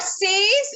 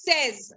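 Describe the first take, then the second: First: "says" as saze, lifting; wrong pronunciation. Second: "says" as sez, falling; right pronunciation. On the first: Teacher showing the wrong form, says said as saze. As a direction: rhyme says with days. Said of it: "it is not says". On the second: Teacher correcting the class, says said as sez. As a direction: rhyme says with fez. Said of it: "it is says". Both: Shown as a demonstration.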